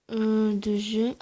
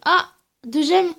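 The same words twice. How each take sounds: First: Said in the usual way. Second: Louder, higher "ah" of surprise; surprised reaction to "deux gemmes", slow and higher; pleased surprise. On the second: Real, not acted. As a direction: react as if you just noticed it. Reacting to the reward.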